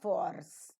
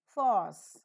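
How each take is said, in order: First: The r sound is pronounced in the word. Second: The r sound is silent in the word. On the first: The speaker calls it wrong. "not force" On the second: The speaker calls it right.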